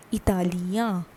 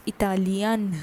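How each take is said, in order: First: "Italian" as ee-ta-lya, nasal ending; masculine French pronunciation. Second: "Italian" as ee-ta-lyan, final n sounded; feminine French pronunciation. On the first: Teacher building the masculine form, "Italian" ending in nasal ya. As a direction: leave the final n of "Italian" unsounded. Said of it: "Ia is an, added at the end". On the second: Teacher showing the feminine form, "Italian" ending in a sounded n. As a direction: close "Italian" on a clear n. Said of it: "For femina, it becomes". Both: Shown as a demonstration.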